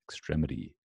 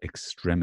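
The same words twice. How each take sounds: First: The t is softened toward a d sound. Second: The t is crisp and not softened. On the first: "notice the d is like a t, like a t, which it becomes softened" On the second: "British people would say extremity"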